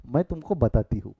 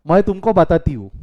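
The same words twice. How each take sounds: First: A calm, friendly "I'll tell you"; easy and unhurried, no edge; gentle tone. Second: Loud, sharp threat of a telling-off; angry wife's warning, said loud; scolding tone. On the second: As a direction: say it like she's about to scold you. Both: Shown as a demonstration. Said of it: "फर्क है ना दोनों में".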